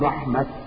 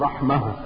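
First: The word ends in a t sound. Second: The word ends in an h sound. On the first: "عندما تقف عليها بالتاء" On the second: "تقف عليها بالهاء"

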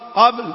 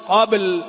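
First: The final l sound is barely voiced. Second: The final l sound is clearly voiced. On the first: The speaker calls it wrong. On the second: The speaker calls it right.

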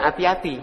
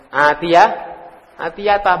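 First: The word ends with an 'i' vowel. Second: The word ends with an 'a' vowel. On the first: The word is in the genitive case. The speaker calls it wrong. "bukan atiyati ya" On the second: The word is the object, in the accusative case. The speaker calls it right. "maka dibaca atiyata"

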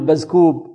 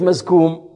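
First: The m sounds come out as b sounds. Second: The m sounds are clearly nasal.

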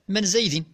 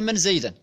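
First: The name ends with the vowel i (zaydin). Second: The name ends with the vowel a (zaydan). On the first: "فأقول لك على سبيل الحكاية: من زيد؟ بالجر" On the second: "ولكن قلت لك: من زيدا؟ بالنصب"

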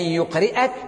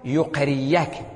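First: A glottal stop follows the vowel i. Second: A y sound replaces the glottal stop. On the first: "يقرئك همزة مفتوحة إثر ماذا؟ إثر كسرة" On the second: "إذا أردنا تخفيفها أبدلناها ياء"

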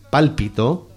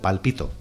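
First: The stress is on the first syllable. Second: The stress is on the second syllable. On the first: The speaker calls it right. "aquí dice pálpito" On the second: The speaker calls it wrong. "yo os la vendo como palpito"

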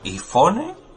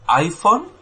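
First: It is pronounced the Spanish way. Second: It is pronounced the English way. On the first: "¿O en español cómo sería?" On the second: "¿cómo está bien dicho tanto en inglés como en castellano?"

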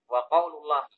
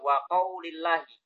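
First: The word qaul ends with a u vowel. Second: The word qaul ends with an i vowel. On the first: The phrase starts a new sentence. "Kenapa kok dibaca rofa?" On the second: The phrase is joined to the words before it. "Kalau dibaca jar, ya tentunya atof kepada kalimat sebelumnya"

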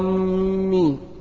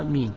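First: The m sound is held and doubled. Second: The m sound is short and single. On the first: Those heading toward a place. The speaker calls it wrong. "لو قال آمين غلط" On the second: O God, answer the prayer. The speaker calls it right. "بالمد هكذا، آمين وبالتخفيف"

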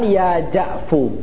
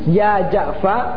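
First: The name ends with a 'u' vowel. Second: The name ends with an 'a' vowel. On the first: The shortened name is treated as a complete word. "dan juga boleh antum katakan ya Ja'fu" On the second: The remaining letter keeps its original vowel. "sebelum huruf ra adalah ain di fathah, maka yang pertama boleh antum katakan ya Ja'fa"

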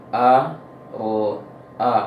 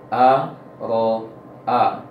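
Both takes have the same delivery.

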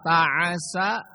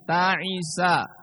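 First: The vowel after the second consonant is 'a'. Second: The vowel after the second consonant is 'i'. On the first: "ainnya di fathah" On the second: "di kasroh ain"

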